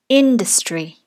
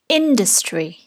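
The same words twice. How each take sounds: Both takes have the same delivery.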